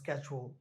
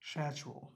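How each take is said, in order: First: It is said with an American pronunciation. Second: It is said with a non-American pronunciation. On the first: "Schedule হচ্ছে কি American" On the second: "আরেকটা উচ্চারণ হচ্ছে কি শ্যাচুয়াল"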